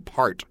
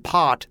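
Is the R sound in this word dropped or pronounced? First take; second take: pronounced; dropped. First: The word is said with a clear R sound. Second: The word is said without an R sound. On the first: "when they had to say rhotic R's" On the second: "they wouldn't say pot"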